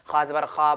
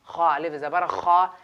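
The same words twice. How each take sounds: First: खा ज़बर खा said short and quick, no stretch; quick short vowel. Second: Slow, the first खा drawn out one alif long; stretched madda. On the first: Teacher contrasting the quick zabar reading, short and clipped. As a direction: clip each खा short like a plain zabar. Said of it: "ज़बर ज़ेर को हम जल्दी पढ़ते हैं". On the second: Teacher showing students the long madda, slowly stretched. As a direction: hold the खा of खा अलिफ long before the short ज़बर खा. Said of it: "एक अलिफ बराबर खींच कर पढ़ना है". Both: Shown as a demonstration.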